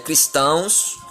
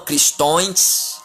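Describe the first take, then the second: First: The word ends with an 'ãos' sound. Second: The word ends with an 'ões' sound. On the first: The speaker calls it right. "mas sim a pronúncia certa é cristãos" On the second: The speaker calls it wrong. "não cristões"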